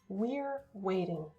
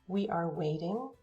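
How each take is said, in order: First: The verb is joined to the pronoun. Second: The verb is a separate full syllable. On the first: "the shorter forms" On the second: "the long forms"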